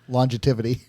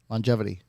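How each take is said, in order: First: It is said with an extra t sound. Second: It is said without an extra t sound.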